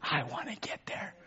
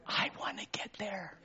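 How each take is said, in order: First: Gentle soft resolve; soft repetition. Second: Breathy whispered wish; hushed yearning whisper; whispered longing. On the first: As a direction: say it softly again, voiced. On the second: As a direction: whisper it as a private hope. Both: Real, not acted.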